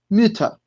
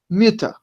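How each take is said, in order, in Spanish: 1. La primera vocal es un sonido 'ü' anterior redondeado. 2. La primera vocal es un sonido 'ü' anterior redondeado.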